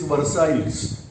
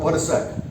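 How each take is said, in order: First: The name is pronounced letter by letter, as spelled. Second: The name is pronounced the French way, silent ending. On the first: "if you are going to look at the spelling, it is Versailles" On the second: "We are saying it is Treaty of Versailles"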